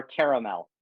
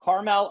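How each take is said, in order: First: "caramel" as CARE-uh-mel; three-syllable pronunciation. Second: "Caramel" as CAR-mel; two-syllable pronunciation. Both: Shown as a demonstration. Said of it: "pronounce five words".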